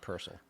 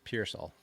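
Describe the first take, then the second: First: The first syllable sounds like 'pur'. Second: The first syllable sounds like 'peer'. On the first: The speaker calls it wrong. "not Purcell" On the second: The speaker calls it right. "you gotta say his name right. It's Pearsall"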